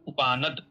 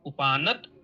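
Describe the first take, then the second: First: The word ends with a d sound. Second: The word ends with a t sound. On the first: "एक दकार लगा करके" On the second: "एक तकार लगा करके"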